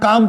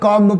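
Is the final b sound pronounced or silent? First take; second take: silent; pronounced. First: The word ends on an m sound, no b. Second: The word ends with an audible b sound. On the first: The speaker calls it right. "काम पढ़ेंगे" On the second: The speaker calls it wrong. "ना कि कॉम्ब पढ़ेंगे"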